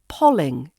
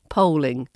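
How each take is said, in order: First: The first vowel sounds like the one in 'doll'. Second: The first vowel does not sound like 'doll'. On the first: "and polling instead of polling" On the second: "instead of polling"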